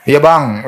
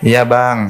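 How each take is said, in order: First: "Iya, Bang" pitched up and loud, harsh; rough, loud "Iya, Bang". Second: Gentle "Iya, Bang". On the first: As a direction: bark "Iya, Bang" like a rude wife. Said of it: "Eh, beda". ("Iya, Bang" diucapkan keras dan kasar) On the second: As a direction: say "Iya, Bang" sweetly to your husband. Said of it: "Nah, bisa kan". ("Iya, Bang" diucapkan lembut) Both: Shown as a demonstration.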